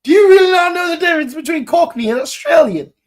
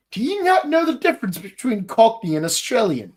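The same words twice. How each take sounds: First: Loud, very high, rapid-fire disbelief; exasperated outburst. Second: Quick, higher-pitched disbelief; exasperated question. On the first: Podcaster berating those who mistook Cockney for Australian, loud exasperation. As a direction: burst out incredulous, pitched way up. Repeats question, far more heated. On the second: Podcaster questioning those who mistook Cockney for Australian, mild exasperation. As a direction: ask it fast, mildly incredulous. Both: Acted.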